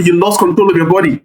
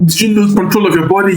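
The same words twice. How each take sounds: First: Falling statement on control of your body; statement tune. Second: Rising question on control of your body; questioning tune. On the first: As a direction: state it, dropping the end of body. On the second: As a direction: ask it, lifting the end of body. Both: Retold or imitated. Rewords question versus statement.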